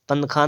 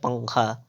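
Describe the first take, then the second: First: पंखा with a separate n before kh; wrong pronunciation. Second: पंखा with velar ng before kh; nasal back-of-tongue पंखा; correct pronunciation. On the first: Teacher showing the error, पंखा as pan-khā. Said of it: "पंखा नहीं होता है". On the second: Teacher correcting, पंखा as pang-khā. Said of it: "क्या होता है". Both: Shown as a demonstration.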